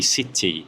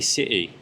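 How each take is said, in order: First: It is said in a careful, clear way. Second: It is said in a relaxed, casual slang way. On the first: The speaker is teaching. "if I'm teaching, it would be" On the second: The speaker is chatting with friends. "when I'm being lazy and when I'm talking with my friends in like slang"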